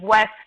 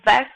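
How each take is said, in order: First: The word begins with a rounded W sound. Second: The word begins with a buzzing V sound. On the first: The speaker calls it right. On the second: The speaker calls it wrong.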